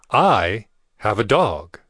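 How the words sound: The word 'I' is stressed.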